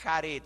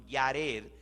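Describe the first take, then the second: First: The name begins with a throaty h sound. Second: The name begins with a y sound. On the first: The speaker calls it wrong. "no se dice Jared" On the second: The speaker calls it right. "sino Yared"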